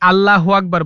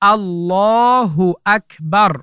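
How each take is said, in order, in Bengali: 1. এটি একটি সাধারণ ভুল উচ্চারণ। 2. এটি সঠিক ও মানসম্মত উচ্চারণ। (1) "ভুল উচ্চারণ" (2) "সঠিক উচ্চারণ"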